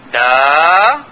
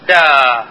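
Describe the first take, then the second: First: دا starting low, dipping, then rising. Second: دا dropping sharply from high to low; high falling tone. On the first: Teacher demonstrating the low rising Mandarin tone, low then rising. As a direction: start دا down low and let it climb. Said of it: "بالطبقة المنخفضة المتصاعدة". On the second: Teacher demonstrating the high falling Mandarin tone, sharp drop. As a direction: hit دا high and let it fall fast. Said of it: "الآن العالية المنحدرة". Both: Shown as a demonstration.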